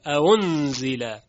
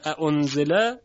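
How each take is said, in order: First: اَأُنزِلَ gliding from a into u, n held; softened second hamza. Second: اَأُنزِلَ with the two hamzas set apart; example before softening. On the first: Teacher demonstrates tashil, smooth glide. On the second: Teacher names the word, hamzas separate. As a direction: present اَأُنزِلَ with a distinct second hamza. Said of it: "همزهٔ دوم". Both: Shown as a demonstration.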